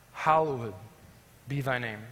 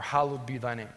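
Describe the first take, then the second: First: "hallowed" as hallow-ed, with the ending voiced separately; hallowed in three syllables. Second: "hallowed" as hal-lowd, ending run in; hallowed in two syllables. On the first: Preacher reciting the Lord's Prayer, "hallowed" as hallow-ed. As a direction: say "hallowed" drawn out as hal-low-ed. Gives two pronunciations of hallowed. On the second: Preacher offering the other reading, "hallowed" as hal-lowd. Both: Shown as a demonstration.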